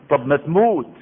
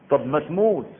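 First: "طب ما تموت" said again, louder and punched; louder repeat. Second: Said in the usual way. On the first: Shown as a demonstration. Preacher challenges the fearful, louder on "تموت". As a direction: hammer "تموت" home the second time.

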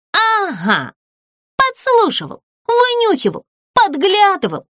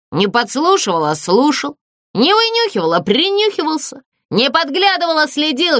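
First: High, angry accusing list. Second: Ghost correcting her. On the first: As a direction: jab each accusation at the ghost. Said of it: "рассердилась Злюня". (сердито обвиняет, высоким голосом) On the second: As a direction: correct each word with injured dignity. Призрак оправдывается, передразнивая обвинения. (обиженный призрак поправляет её) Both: A narrator's reading.

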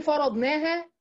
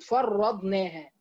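First: فرضناها with a short single r, faradnaha; light single-consonant reading. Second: فرضناها with a held double r, far-radnaha; doubled-consonant reading. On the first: Teacher giving the lighter reading, single r in فرضناها. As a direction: say فرضناها without doubling the r. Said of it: "معناها بالتخفيف طبعًا". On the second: Teacher showing the scholars' reading, doubled r in فرضناها. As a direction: slowly lean on the doubled r in فرضناها. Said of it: "من قرأ كلمة فرضناها بالتشديد". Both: Shown as a demonstration.

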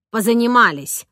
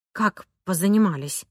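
First: Firm closing statement; nanny sending the tutor away; dismissive. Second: Subdued, shocked question; stunned. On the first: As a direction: end the lesson with finality. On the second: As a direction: tutor taken aback. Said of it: "потрясённо спросила я". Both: A narrator's reading.

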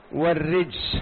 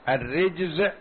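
First: "والرجس" ending in a voiceless s; sin ending. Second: "الرجز" ending in a voiced z; zay ending. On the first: Teacher comparing sister letters, "والرجس" said with voiceless final s. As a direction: say "والرجس" with a hissed sin to close. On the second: Teacher comparing sister letters, "الرجز" said with voiced final z. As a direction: say "الرجز" with a buzzing zay to close. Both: Shown as a demonstration. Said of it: "الزاي والسين أختان".

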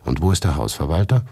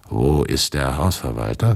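First: Said in the usual way. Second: Changed, slower voice, a touch lower; other voice. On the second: A narrator's reading. Narrator asks the girl again in another voice, changed. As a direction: ask it again in a different voice. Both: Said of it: "fragte ich mit anderer Stimme".

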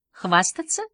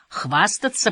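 First: "Хвастаться" lifted into a rising question; "Хвастаться" said as a baffled question, pitch climbing; puzzled echo question. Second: Said in the usual way. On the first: A narrator's reading. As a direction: query the word "Хвастаться" with a higher, rising end. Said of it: "не поняла Джемма".

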